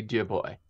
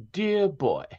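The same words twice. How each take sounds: First: Said in the usual way. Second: Put-on high, lilting 1940s East Coast accent on "Dear boy"; lilting Northeast accent. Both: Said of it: "She had kind of like that lilting".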